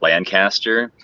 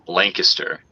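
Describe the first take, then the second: First: The first vowel is not a long A. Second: The first vowel is a long A sound. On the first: The speaker is not from the area. The speaker calls it wrong. "if you're not from here, you're going to pronounce it Lancaster" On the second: The speaker is from the area. The speaker calls it right. "There's like an L A, a long A"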